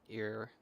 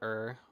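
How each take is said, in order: First: The syllable sounds like the word 'ear'. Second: The syllable sounds like the word 'er'. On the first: "or ear" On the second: "not er"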